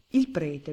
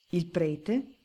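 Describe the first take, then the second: First: "Il prete" as a firm statement, no questioning rise; mechanical answer. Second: "Il prete?" rising as a question at the end; mild questioning cry. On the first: Baron echoing the judge, "Il prete" stated mechanically. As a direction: answer "Il prete" automatically, stating it. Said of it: "non parlava più che per una specie di meccanismo interno". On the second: Judge reacting to the baron's testimony, questioning "Il prete?" with a mild cry. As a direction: exclaim "Il prete?" as a startled question, without shouting. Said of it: "gridò il giudice".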